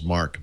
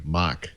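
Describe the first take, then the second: First: Said in the usual way. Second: Mock for Mark in a Boston accent, R dropped. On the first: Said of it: "my daughter asked why Graham". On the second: Grandmother calls Mark by name, Boston accent Mock. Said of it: "why Graham ... calls Mark Mock".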